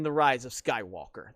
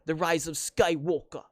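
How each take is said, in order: First: Said in the usual way. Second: Lightly faked British accent on the title; terrible British accent. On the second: Fan mocking the film's title, terrible British accent. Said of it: "That's probably a terrible accent".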